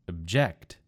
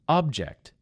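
First: The stress is on the second syllable. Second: The stress is on the first syllable. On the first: It is a verb. "in the second word, I moved the emphasis to the second syllable" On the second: It is a noun. "In the first word, it was on the first syllable"

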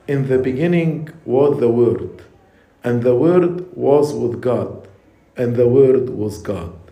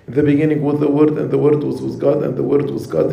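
First: It is read slowly with clear pauses. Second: It is read quickly without clear pauses.

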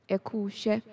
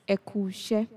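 Both takes have the same delivery.

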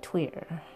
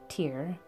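First: The name has the band's own native pronunciation. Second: The name has an American English pronunciation. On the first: This is how the band members say the name. "it sounds like to me that they say Tyr" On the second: This is how many Americans say the name. "A lot of us Americans call it Tyr"

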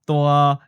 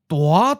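First: The syllable is said on a level mid pitch. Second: The syllable is said with a rising mid pitch. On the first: It means big. "an adjective in the mid-flat seventh tone" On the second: It means really big. "The first syllable becomes mid-rising ninth tone"

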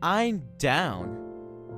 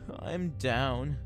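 First: The voice sounds upbeat and eager. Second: The voice sounds low and glum. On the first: The speaker is keen to join in. "that means I would love to go" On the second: The speaker is feeling unhappy. "meaning that I am sad or upset"

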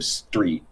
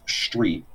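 First: The st sound is said the usual plain way. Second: The st sound has the Philadelphian changed quality. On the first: "most people would say it like S-T-R-E-E-T" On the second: "But we all have street"

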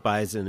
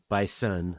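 First: The middle consonant sounds like a z. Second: The middle consonant sounds like an s. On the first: The speaker calls it wrong. "excuse me" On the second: The speaker calls it right. "I'll pronounce it with the S"

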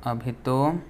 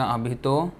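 Both takes have the same delivery.

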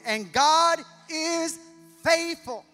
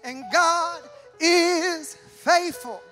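First: It is said in a plain reading voice. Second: It is said in a big preaching voice.

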